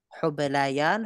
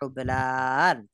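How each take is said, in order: First: A y sound comes before the ending. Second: No y sound comes before the ending. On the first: The speaker calls it right. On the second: The speaker calls it wrong.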